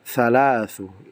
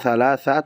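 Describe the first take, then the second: First: The word ends in an u vowel. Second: The word ends in an a vowel. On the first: The speaker calls it right. "Makanya dibaca salah thalathu" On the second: The speaker calls it wrong. "bukan thalatha"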